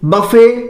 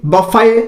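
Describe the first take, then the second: Both takes have the same delivery.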